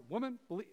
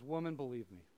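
First: A curt, scolding "Woman"; harsh "Woman". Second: Soft, low "Woman, believe me"; gentle appeal. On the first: Shown as a demonstration. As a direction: snap out "Woman" as a rebuke. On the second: Retold or imitated. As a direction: say "Woman" tenderly, not harshly. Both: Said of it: "he's not like".

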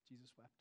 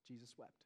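First: Fading to a near whisper; softer still, reverent; barely audible. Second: Almost whispered, very soft; barely voiced, reverent; hushed. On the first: Acted. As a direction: drop it to nothing. Repeated even softer. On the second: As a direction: let it fall to a hush. Quoting the shortest verse softly.

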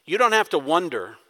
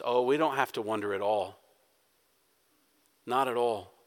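First: Said in the usual way. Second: Soft, low comfort to a worried congregation; soft reassurance. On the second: Real, not acted. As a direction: lower and much softer, gently reassuring.

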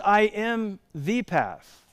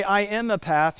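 First: Slow, higher-pitched, "the" set apart as "thee"; stress on THE. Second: Said in the usual way. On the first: Shown as a demonstration. Preacher contrasting Jesus's exclusive claim, "the" stressed. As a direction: land hard on "the", the one and only. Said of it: "He says". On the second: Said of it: "He doesn't just say".

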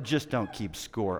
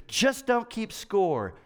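First: Lower, softer, slow scornful repeat. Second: Slow, higher mock of silly advice; mocking quote. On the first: Retold or imitated. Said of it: "Are you kidding me?". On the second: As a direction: parrot the advice slowly, pitched up. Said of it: "someone would say something even more stupid".

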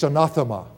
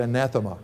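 First: "anathema" with a broad AH in the second syllable. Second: "anathema" with a flat A as in cat; short-a anathema. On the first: Preacher names the Greek word for accursed, broad-a anathema. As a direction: say "anathema" as a-NAH-thema. Gives two pronunciations of the word. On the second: Preacher offers how some people say it, short-a anathema. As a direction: say "anathema" as a-NATH-ema. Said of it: "Some people say anathema". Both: Shown as a demonstration.

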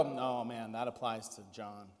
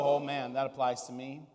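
First: Dropping low and much softer, pointing the finger; a quiet self-satisfied "that's about John"; mildly smug, blaming someone else; smug deflection. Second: Soft, humbled self-recognition; a quiet "oh man, that's me"; said as a hint of conviction, turning it inward; humble realization. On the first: Retold or imitated. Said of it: "do you look around and go". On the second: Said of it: "do you read it and go".

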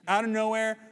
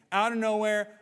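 No difference in how they are said.

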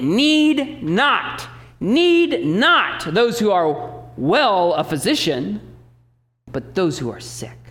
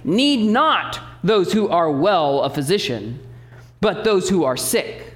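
First: "Need not, need not" hit hard, very slow; emphasis on need not. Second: "Need not" first, slow and drawn out; literal word order. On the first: Pastor underlining Jesus' words for the church, slow and emphatic. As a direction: lean on "Need not" as if bolded. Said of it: "like he underlined it or he bolded it". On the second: Pastor reading the Greek order to the church, slow and deliberate. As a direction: slowly read "Need not those who are well a physician". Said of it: "it reads like this". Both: Shown as a demonstration.

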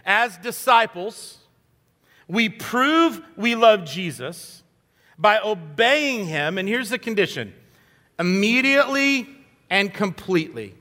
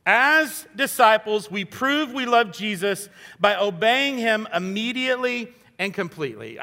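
First: Slow, every word weighted; slow emphatic statement. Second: Said in the usual way. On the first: Shown as a demonstration. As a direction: lay out the key thought slowly, word by word. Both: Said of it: "my key thought for today is this".

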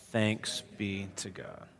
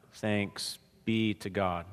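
First: Said in the usual way. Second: Slow, drawn-out teacherly prompt; kindergarten teacher voice. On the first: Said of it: "Say it loud today". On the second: Shown as a demonstration. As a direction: spell it out slowly like to small children. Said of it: "I know I sound like a kindergarten teacher".

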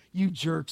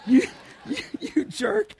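First: Said in the usual way. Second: High, teary laugh breaking on "jerk"; laughing through tears. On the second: Real, not acted. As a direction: choke up while laughing fondly. Laughing, choking up about Scott.

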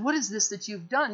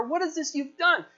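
First: Said in the usual way. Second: High-pitched, astonished rebuke; rebuking. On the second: Acted. Sailors confronting runaway Jonah, rebuking. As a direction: scold in a raised pitch, aghast. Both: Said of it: "unbelievers rebuking the believer".

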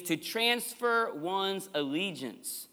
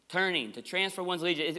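First: Slow emphasis. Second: Said in the usual way. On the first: Shown as a demonstration. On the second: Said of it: "The word turning here means".

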